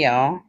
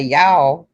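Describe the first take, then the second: First: "y'all" with a rounded aw vowel; own pronunciation. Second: "y'all" with an open ah vowel; imitated pronunciation. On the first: Shown as a demonstration. Showing Roland their own way, rounded "y'all". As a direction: say "y'all" as "yawl", rising. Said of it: "I say y'all". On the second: Teasing Roland on how they say it, mimicked "y'all". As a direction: mimic their "y'all" as "yah-l". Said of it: "now you say y'all".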